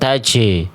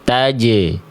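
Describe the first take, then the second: First: The j is released with escaping breath. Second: The j is released dry with no breath. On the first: The speaker calls it wrong. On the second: The speaker calls it right. "Harusnya bunyinya kering"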